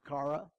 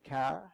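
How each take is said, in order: First: It is said in a Southern drawl. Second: It is said in a New England accent.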